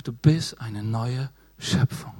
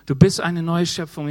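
First: Gentle Jesus voice. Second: Emphatic restatement. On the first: Retold or imitated. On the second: Real, not acted. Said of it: "preacher restates loud".

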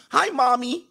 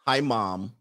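First: Put-on high-pitched childish greeting; mock mommy's boy. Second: Said in the usual way. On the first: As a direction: greet her like a little kid, way up high. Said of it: "Do you call her mommy". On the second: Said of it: "Call her mom".

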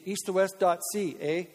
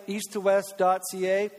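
First: "east to west dot C A" said the Canadian way, letters spelt out; Canadian accent. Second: Said in the usual way. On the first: Shown as a demonstration. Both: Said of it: "let's say it Canadian".

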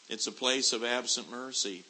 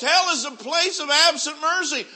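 First: Said in the usual way. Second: Hell is a place of absent mercy shouted high and loud; preacher hammering home the doom of hell; fiery preaching. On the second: Acted. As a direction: thunder the refrain from the pulpit. Repeated refrain, shouted.

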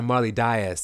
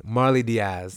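First: "Diaz" said as DYE-us; corrected surname. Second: "Diaz" said as dee-AZ; mispronounced surname. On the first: Shown as a demonstration. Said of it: "is how you say her name". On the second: Real, not acted. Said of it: "I'm sorry, Marley Diaz is how you say".

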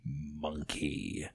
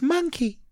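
First: Low, slow, drawn-out man from beyond; ghostly man's voice. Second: Put-on very high little Welsh child; Welsh five-year-old. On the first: Acted. Dead grandad prompts the toddler, ghostly low voice. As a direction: prompt softly in a deep ghostly voice. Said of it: "you can hear a male voice say". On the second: Toddler repeats the prompted word, high child voice. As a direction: pipe it up like a small Welsh girl. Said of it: "that was a young Welsh five-year-old's voice".

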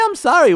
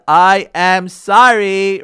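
First: Said in the usual way. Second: I am sorry drawn out slowly and louder, each word separate; slow, deliberate apology. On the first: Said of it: "what's so hard?". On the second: Shown as a demonstration. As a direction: spell out every word of "I am sorry" slowly and firmly. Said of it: "S O R R Y, right?".

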